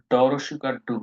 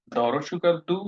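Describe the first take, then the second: First: ডু with a hard retroflex d. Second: Slow demo of দু with the tongue on the teeth; dental du. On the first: Teacher showing students the retroflex variant ডু, firm and clear. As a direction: say ডু with the tongue curled back. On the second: Teacher showing students the dental variant দু, slow and careful. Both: Shown as a demonstration. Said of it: "দুইটাই সঠিক".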